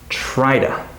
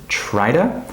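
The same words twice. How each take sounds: Both takes have the same delivery.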